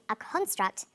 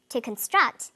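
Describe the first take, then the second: First: "construct" stressed on CON, slow CON-struct; first-syllable stress. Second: "construct" stressed on STRUCT, slow con-STRUCT; second-syllable stress. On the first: Teacher models the noun form, first-syllable stress on "construct". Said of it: "first syllable emphasis for the noun form". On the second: Teacher models the verb form, second-syllable stress on "construct". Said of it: "second syllable emphasis for the verb form". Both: Shown as a demonstration.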